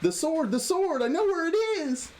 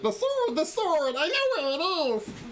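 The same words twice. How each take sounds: First: It is read in the narrator's own voice. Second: It is said in Lulu's put-on character voice.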